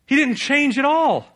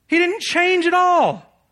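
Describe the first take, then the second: First: Emphatic. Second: Much higher, slow, full shout. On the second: Preacher repeats his point to the congregation, shouting. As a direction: cry it out slow and loud. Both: Real, not acted. Preacher hammers Jonah's failure.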